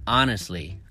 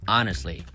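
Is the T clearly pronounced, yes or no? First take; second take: no; no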